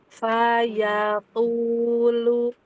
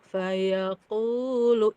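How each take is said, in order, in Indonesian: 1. Vokal 'a' diucapkan dengan mulut terbuka lebar. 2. Vokal 'a' diucapkan dengan mulut hanya sedikit terbuka. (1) "dibuka kan ya?" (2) "enggak dibuka mulutnya"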